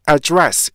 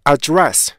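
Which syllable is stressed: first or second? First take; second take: second; second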